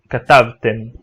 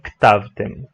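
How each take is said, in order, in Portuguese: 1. Uma vogal 'a' plena segue a primeira consoante. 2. Nenhuma vogal plena segue a primeira consoante. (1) "é muito comum as pessoas também dizerem" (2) "e não"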